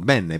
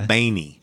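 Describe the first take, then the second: First: The name is said like Beh-neh. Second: The name is said like Baney. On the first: This is the original Italian word for good. "it's Italian for good" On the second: This is how relatives in California say it. "my California cousins say Baney"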